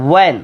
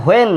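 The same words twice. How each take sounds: First: "when" said as "wen", straight on w; W without h. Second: "when" said as "hoen", h before the w; mistaken h pronunciation. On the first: Teacher gives students the real form, w without h. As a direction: push the w of "when", no h. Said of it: "এটা when". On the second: Teacher rejects this form for students, mistaken h pronunciation. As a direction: open "when" on an added h. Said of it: "এটা when না". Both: Shown as a demonstration.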